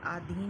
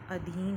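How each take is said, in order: First: "आधीन" opened with long aa; wrong-form demo, aa-dheen for "आधीन"; mispronounced long vowel. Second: Said in the usual way. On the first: Shown as a demonstration. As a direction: stretch the first vowel of "आधीन" to aa. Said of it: "नहीं होता है". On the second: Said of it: "होता है".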